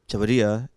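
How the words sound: It is said with a Japanese accent. "is the Japanese pronunciation"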